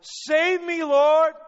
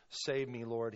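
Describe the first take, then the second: First: Very high, full-force scream for rescue; desperate shout. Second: Said in the usual way. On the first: Acted. Preacher as sinking Peter to Jesus, desperate shout. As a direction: scream it out as if going under. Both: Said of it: "he shouted".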